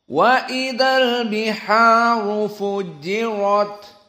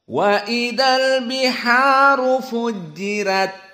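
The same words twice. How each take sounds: First: The r in fujirat is heavy and thick. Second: The r in fujirat is light and thin. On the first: This follows the majority reading tradition. "Dengan rot dalam keadaan at-tafkhim" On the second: This follows one reading tradition. "Wars di sini membaca dengan tarqiq ar-ra"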